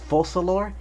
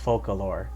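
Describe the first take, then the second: First: The C is pronounced like an S sound. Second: The C is pronounced like a K sound. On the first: "If you want to pronounce the C like a like an S" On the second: "Otherwise, you might read it as"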